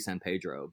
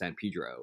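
First: The name is pronounced with Spanish sounds. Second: The name is pronounced with English sounds. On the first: This is how the name ought to be said. "it should be San Pedro" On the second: This is how locals actually say the name. "but it's San Pedro"

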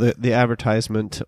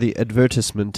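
First: It is said the American way. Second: It is said the British way.

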